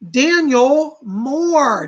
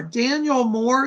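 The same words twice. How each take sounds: First: Slow, loud drawn-out reveal; winner announcement. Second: Said in the usual way. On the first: Acted. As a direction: stretch the name out like a game show host.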